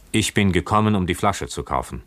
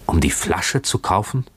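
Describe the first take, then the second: First: Said in the usual way. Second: Stunned question with a rising tune; gasped question. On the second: A narrator's reading. Shocked young owner echoing the buyer, gasped question. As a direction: repeat it in breathless disbelief. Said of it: "keuchte er".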